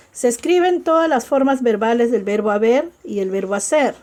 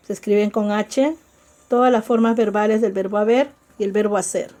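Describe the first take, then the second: First: Said in the usual way. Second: "todas las formas verbales" rattled off fast; fast recap of the rule for the class; quick repeat. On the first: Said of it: "teacher repeats the rule". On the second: Shown as a demonstration. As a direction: rush through the repeated rule. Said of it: "teacher repeats the rule faster".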